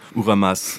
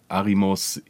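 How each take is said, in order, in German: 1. Die Vokale sind u, a, a. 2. Die Vokale sind a, i, o. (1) "er wird immer anders genannt" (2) "keiner kann diesen Vornamen richtig aussprechen"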